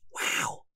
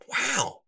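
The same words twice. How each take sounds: First: The word is said softly and quietly. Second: The word is said loudly and excitedly. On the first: "Bookworm said quieter" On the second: "Bookworm exclaimed"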